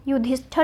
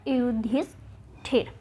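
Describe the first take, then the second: First: युधिष्ठिर ending in -ṭhar; युधिष्ठिर as "yudhishthar"; wrong spelling pronounced. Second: युधिष्ठिर slowly, ending in -ṭhir; slow, softer युधिष्ठिर; correct form, drawn out. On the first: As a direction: say युधिष्ठिर with a short 'a' before the final r. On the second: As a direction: break युधिष्ठिर slowly into parts with an i/e in the last. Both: Shown as a demonstration. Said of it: "जबकि होता क्या है".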